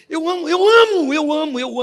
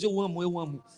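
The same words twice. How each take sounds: First: Loud, high burst of joy on amo; excited outburst. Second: Said in the usual way. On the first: Real, not acted. The preacher tells the congregation he loves God's word, exuberant. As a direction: cry it out with delight.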